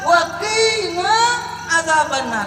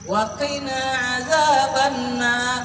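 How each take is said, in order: First: The vowel in 'qi' is drawn out long. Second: The vowel in 'qi' is short. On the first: A command addressed to a female. The speaker calls it wrong. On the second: A command addressed to one male. The speaker calls it right.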